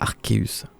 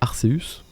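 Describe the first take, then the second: First: The c is said with a k sound. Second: The c is said with an s sound. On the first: "plus stylé avec un, un K, ouais, ça fait Arceus" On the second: "alors que Arceus"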